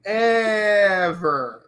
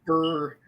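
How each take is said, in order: First: It imitates an animated pony's voice. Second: It is said in his normal voice.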